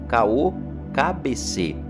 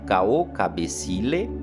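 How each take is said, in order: First: The last word has three syllables, ending -cê. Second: The last word has four syllables, ending -cilê. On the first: Some houses use this shortened form. "a forma de pronúncia em algumas casas pode simplesmente ser" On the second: This is the traditional form of the greeting. "é a forma correta"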